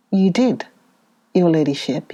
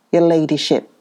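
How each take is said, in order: First: Said in the usual way. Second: Mocking deference on your ladyship; satirical. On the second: A narrator's reading. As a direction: lay the irony on your ladyship. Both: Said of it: "said the man, satirically".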